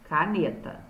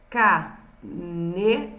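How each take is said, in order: First: Said in the usual way. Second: Caneta broken into ca, ne, ta with pauses; syllable by syllable. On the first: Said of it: "escrevi aqui embaixo". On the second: Shown as a demonstration. Teacher showing the underlined syllables, caneta syllable by syllable. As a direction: say caneta slowly, one syllable at a time. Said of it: "as sílabas".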